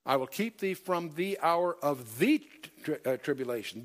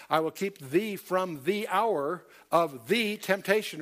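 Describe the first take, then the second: First: Said in the usual way. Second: Slow, with "the" weighted before "hour" and "temptation"; stress on THE. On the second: Shown as a demonstration. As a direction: lean hard on each "the", slowly. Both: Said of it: "that's very emphatic".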